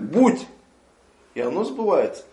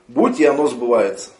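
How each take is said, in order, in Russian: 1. После первого слова есть четкая пауза. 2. Слова идут слитно, без паузы. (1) "останавливаться на слове кун" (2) "А не то, что он говорит"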